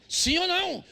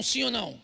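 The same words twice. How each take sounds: First: Higher, more forceful repeated question; insistent demand. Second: Said in the usual way. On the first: Real, not acted. Preacher demanding an answer from the congregation, insistent. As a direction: press the crowd hard for an answer.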